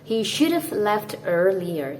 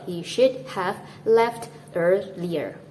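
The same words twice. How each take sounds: First: 'Have' is contracted with 'should'. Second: 'Have' is said in full. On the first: The speaker calls it right. "you might want to say this" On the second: The speaker calls it wrong. "instead of"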